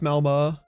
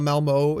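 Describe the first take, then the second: First: The last vowel is a rounded ö sound. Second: The last vowel is a plain English o. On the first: The speaker calls it right. "it's Malmo. ... it has the little dots" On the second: The speaker calls it wrong. "Not Malmo"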